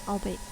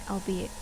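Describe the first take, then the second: The two takes are said the same way.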